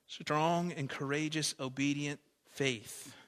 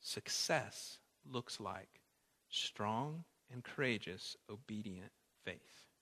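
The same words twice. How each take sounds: First: Strong and courageous, obedient faith slowly, each word weighted; slow, deliberate sermon refrain; slow emphatic refrain. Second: Strong and courageous, obedient faith softer and slow, almost hushed; soft, slow reflective repetition; quiet slow refrain. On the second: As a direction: repeat it gently and slowly. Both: Shown as a demonstration. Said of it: "repeat this point".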